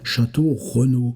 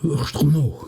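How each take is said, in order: First: The name is said in full, every syllable. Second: The name is squeezed into one short syllable. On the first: This is how locals say it. "dans notre brave Touraine" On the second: This is how the coachmen said it. "qui se prononce Ch'no"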